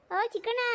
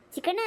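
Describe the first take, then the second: First: ಓ Chikkanna called out high, stretched toward the house. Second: Said in the usual way. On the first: Acted. Visitor calls the son's name again, high and raised. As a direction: shout Chikkanna so someone inside hears.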